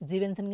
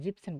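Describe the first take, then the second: First: The word is said with three syllables. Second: The word is said with two syllables. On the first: The speaker calls it wrong. "জীবেনসেন কিন্তু পড়ি না" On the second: The speaker calls it right. "সতেরো যখন পড়ছি তখন আমরা জিপসেন পড়ছি"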